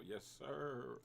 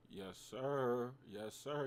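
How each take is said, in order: First: Drawn-out, slow and smug; slow flexing yes sir. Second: Excited yes sir. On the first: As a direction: savor the win, stretching it out. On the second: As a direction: celebrate the win. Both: Real, not acted. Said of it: "Gotta flex a little".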